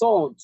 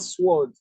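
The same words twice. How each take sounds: First: The w sound is silent. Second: The w sound is pronounced. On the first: The speaker calls it right. "this is sword" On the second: The speaker calls it wrong. "not sword"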